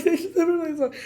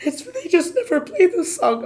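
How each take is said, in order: First: Hysterical laughing. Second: High, loud, frantic voice with the pitch well up; hysterical. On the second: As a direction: blurt it out overexcited, near tears. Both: Retold or imitated. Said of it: "Okay, I'm hysterical".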